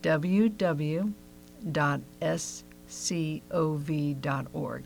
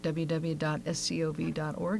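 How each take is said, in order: First: It is said more slowly and deliberately. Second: It is said at a normal pace.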